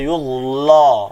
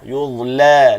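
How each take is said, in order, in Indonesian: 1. Bunyi l itu berat dan tebal. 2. Bunyi l itu ringan dan tipis. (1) "Jangan baca yuzla" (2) "Lam tu wajib baca nipis"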